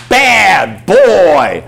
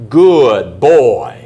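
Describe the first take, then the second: First: Loud, high, drawn-out dog scolding. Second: Loud, drawn-out praise for a dog; praising. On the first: Owner scolds puppy for mess on carpet, loud scolding. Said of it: "I'm gonna spank his butt". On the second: Owner praises puppy for using the papers, hearty praise. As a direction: praise the puppy loudly, stretching the words. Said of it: "go over and praise him". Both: Acted.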